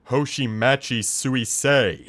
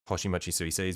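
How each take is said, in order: First: The name is said with an American accent. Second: The name is said with Japanese pronunciation.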